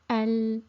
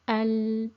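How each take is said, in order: No difference in how they are said.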